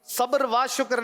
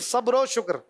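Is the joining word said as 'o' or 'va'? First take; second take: va; o. First: The joining word is pronounced 'va'. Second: The joining word is pronounced 'o'. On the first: The speaker calls it wrong. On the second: The speaker calls it right.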